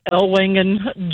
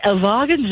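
First: Said in the usual way. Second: "Ellwangen" said the German way, with a v sound for w; German pronunciation. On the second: Shown as a demonstration. Caller correcting herself on the town's name, "Ellwangen" with German v. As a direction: say "Ellwangen" as el-VAH-gen. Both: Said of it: "well, it's technically Elwagen".

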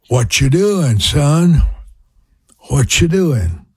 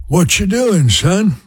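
First: A light Louisiana mother's drawl, imitated; Louisiana accent. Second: Much higher Louisiana mother's voice, imitated; Louisiana accent. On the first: Imitating his Louisiana mother phoning her son, light Louisiana accent. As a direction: mimic mom's Louisiana twang asking her son. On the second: Imitating his Louisiana mother calling her son, high Louisiana accent. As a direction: pitch way up, mimic mom's Louisiana call. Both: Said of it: "a little accent there probably".

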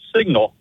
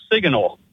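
First: Said in the usual way. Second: "signal" with an extra middle syllable, "sig-a-nal"; imitated mispronunciation. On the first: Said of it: "instead of signal". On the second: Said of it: "you said it was a great signal".

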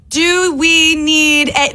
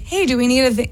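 First: Slow, over-careful, higher; slow dictation voice. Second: Said in the usual way. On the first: Retold or imitated. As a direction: exaggerate talking to the phone. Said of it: "some people, when they talk to text". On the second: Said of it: "but you just talk like".

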